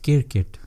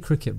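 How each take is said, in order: First: The word is said as 'kirkit' with no cr cluster. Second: The word is said as 'cricket' with a cr cluster. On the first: The speaker calls it right. "Asians pronounce it kirkit" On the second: The speaker calls it wrong. "Don't say cricket"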